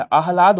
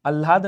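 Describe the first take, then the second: First: आह्लाद with a clear h, aahlaad; correct sound. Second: आह्लाद said without the h, alaad; wrong sound. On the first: Teacher giving students the correct आह्लाद, with a clear h. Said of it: "आह्लाद होता है". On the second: Teacher giving students the wrong आह्लाद, with no h. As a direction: drop the h in आह्लाद. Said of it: "आह्लाद नहीं होता". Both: Shown as a demonstration.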